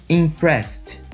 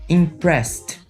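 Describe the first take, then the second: Both takes have the same delivery.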